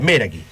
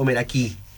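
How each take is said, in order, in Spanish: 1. El acento cae en la primera sílaba. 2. El acento cae en una sílaba posterior. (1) "Era esdrújula" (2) "ninguna de las dos"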